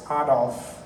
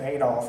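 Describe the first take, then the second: First: The name is said with a non-American pronunciation. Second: The name is said with an American pronunciation. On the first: The speaker calls it right. "it's Adolf" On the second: The speaker calls it wrong.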